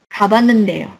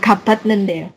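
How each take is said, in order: First: The t sound merges into an n. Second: A t sound comes before the n. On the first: The speaker calls it right. "dia akan lebur jadi Banende" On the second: The speaker calls it wrong. "bukan Kabatnendeo"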